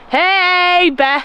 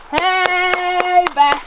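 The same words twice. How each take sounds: First: Loud call to scare off a bear. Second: Calling out to a bear. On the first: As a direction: shout to warn off a bear. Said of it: "This is what the Canadian government tells you to do". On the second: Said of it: "Just warding them off". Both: Shown as a demonstration.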